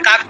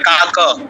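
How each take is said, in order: First: The word ends on a bare k sound. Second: The word ends with an audible a vowel. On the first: This is the everyday Bengali pronunciation. "আমরা বাংলা বলি কাক" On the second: This is the Sanskrit pronunciation. "সংস্কৃতে বলতে হবে কি কা কা কা, এরকম করে বলতে হবে"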